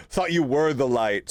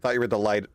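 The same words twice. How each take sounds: First: Said through a laugh; amused teasing through laughter. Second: Said in the usual way. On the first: Real, not acted. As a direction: chuckle the line out. Laughing at the lantern.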